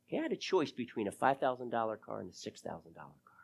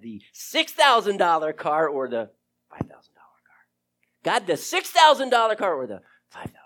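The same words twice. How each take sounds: First: Said in the usual way. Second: Urgent hushed whisper to God; breathless whispered pleading; whispered prayer. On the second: Retold or imitated. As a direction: whisper the choice as if begging God.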